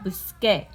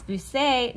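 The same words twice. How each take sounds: First: Busqué with a firm K sound; corrected hard C. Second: Busé with an S where K belongs; wrong soft C. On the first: Teacher correcting the unwanted form, hard K in busqué. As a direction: say busqué with K, not S. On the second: Teacher showing the unwanted sound, S in busé. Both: Shown as a demonstration. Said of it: "No, we want busqué".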